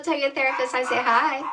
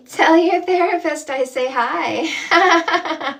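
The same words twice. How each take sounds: First: Said in the usual way. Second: Louder and slower, leaning on tell; slow loud repeat. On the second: Shown as a demonstration. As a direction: stretch it out and project each word.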